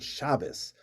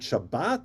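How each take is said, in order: First: The word ends with an s sound. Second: The word ends with a t sound. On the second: This is the Israeli pronunciation. "we say Shabbat Shalom"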